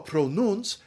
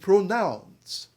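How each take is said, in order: First: The stressed vowel is a long 'oo' sound. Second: The stressed vowel is an 'ow' sound. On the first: This is the older pronunciation before the shift. "the great vowel shift hit" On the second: This is the newer pronunciation after the shift. "became pronounce"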